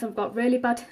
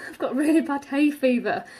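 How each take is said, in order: First: Said in the usual way. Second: Laughing through the words. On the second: Real, not acted. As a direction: speak while laughing. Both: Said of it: "sorry I sound like I'm really out of breath".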